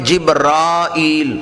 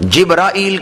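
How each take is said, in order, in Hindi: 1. र के बाद का स्वर लंबा है। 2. र के बाद का स्वर छोटा है।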